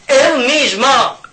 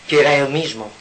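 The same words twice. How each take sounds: First: "Él mismo" cried out high, loud and slow; "Él" hit hard and high, stretched slowly; emphatic repetition. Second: Said in the usual way. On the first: Shown as a demonstration. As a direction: hammer home "Él mismo" as the revelation.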